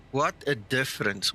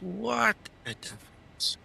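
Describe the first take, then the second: First: Said in the usual way. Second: Higher and slower, put-on; high drawn-out voice. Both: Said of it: "repeats phrase in new voice".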